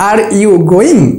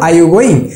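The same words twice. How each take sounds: First: 'Are you' is pronounced fully and separately. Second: 'Are you' is reduced and run together. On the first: The speaker calls it wrong. "আমি কখনো বলবো না" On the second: The speaker calls it right. "কি বলবো?"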